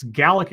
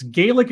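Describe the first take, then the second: First: "Gaelic" with a short A, like GAL-ick; Scottish pronunciation of Gaelic. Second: "Gaelic" with a long AY, like GAY-lick; Irish pronunciation of Gaelic. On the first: Streamer correcting himself for chat, Scottish GAL-ick pronunciation. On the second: Streamer correcting himself for chat, Irish GAY-lick pronunciation. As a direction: say "Gaelic" as GAY-lik, first vowel long. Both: Shown as a demonstration. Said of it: "it's Gaelic if it's Scottish".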